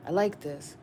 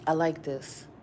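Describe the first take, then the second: No difference in how they are said.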